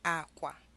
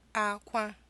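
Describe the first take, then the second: First: Both syllables have a low tone. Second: Both syllables have a high tone. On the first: It means bed. "two low tones" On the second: It means cry. "two high tones"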